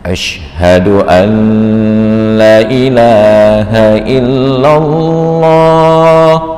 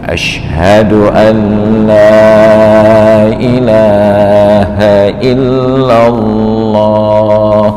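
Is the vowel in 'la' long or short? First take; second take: short; long. First: The vowel in 'la' is short. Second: The vowel in 'la' is long. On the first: It affirms that there is a god besides God. The speaker calls it wrong. "sungguh azan ini sangat salah" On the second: It denies that there is any god but God. The speaker calls it right. "Maka lam itu wajib dipanjangkan minimal satu alif"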